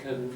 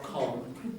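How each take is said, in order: First: The vowel is a weak schwa. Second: The vowel is a full, open vowel. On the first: The speaker calls it right. "becomes a schwa" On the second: The speaker calls it wrong. "not con"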